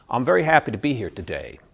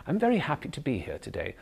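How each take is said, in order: First: "I'm very happy to be here today" coming down hard on "today"; louder, firm American fall at the end on "today"; American hard landing. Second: "I'm very happy to be here today" gently falling, landing softly on "today"; British soft landing. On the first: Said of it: "an American has a hard landing". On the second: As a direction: rise on "very", then come down lightly to "today". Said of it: "the British has a soft landing". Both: Shown as a demonstration.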